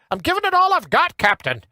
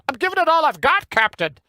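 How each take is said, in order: First: Put-on high-pitched Scottish accent; Scotty impression. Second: Put-on high-pitched Scottish accent retried; second try at Scotty's Scottish accent; Scotty impression again. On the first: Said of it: "Remember Scotty from Star Trek?". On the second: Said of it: "Nah, that was no better".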